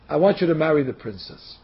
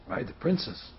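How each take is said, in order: First: Said in the usual way. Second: Hushed, low echo in disbelief; shocked. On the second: Acted. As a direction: repeat it very softly, stunned. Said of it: "He's shocked".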